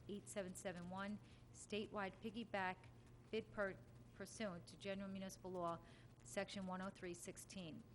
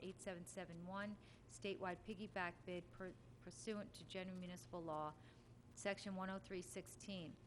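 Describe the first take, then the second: The two takes are said the same way.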